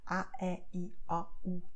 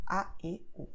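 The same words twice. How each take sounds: First: A, E, I, O, U with the mouth wide open; distinct open-mouthed A, E, I, O, U; open vowels. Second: A, E, O with closed, narrowed lips; closed circumflex sound on A, E, O; closed vowels. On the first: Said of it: "mouth is going to open wide". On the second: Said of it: "the sound is going to be closed". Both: Shown as a demonstration.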